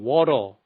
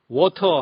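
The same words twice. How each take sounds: First: The t is a soft, rolled flap. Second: The t is a clear, crisp t sound. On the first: "미국에서는 워터" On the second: "워터 하는 것을"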